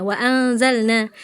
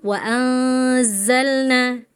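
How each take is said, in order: First: WA ANZALNA with a short, thin z; thin zai. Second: WA ANZALNA with a long, buzzing z; thick hissing zai. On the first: Retold or imitated. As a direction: imitate the student's underdone z in ANZALNA. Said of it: "Farel cuma seperti za". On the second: Shown as a demonstration. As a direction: hold the hissing z in ANZALNA, slowly.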